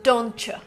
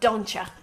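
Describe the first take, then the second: First: The second word is a full you, blended with ch. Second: The second word is reduced to ya. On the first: "Very American" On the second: "If you want to go even more American, say don't ya"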